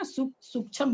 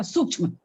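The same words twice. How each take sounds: First: Full chha in sukshma, final vowel lost; wrong sukshma as "sukchham". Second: Half chha joined to "ma" in sukshma; correct sukshma. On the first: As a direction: mispronounce sukshma as "suk-chham". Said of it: "उसमें छ पूरा हो जाता है". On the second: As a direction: say sukshma as "sukchh-ma". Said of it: "सूक्ष्म उच्चारण होता है". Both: Shown as a demonstration.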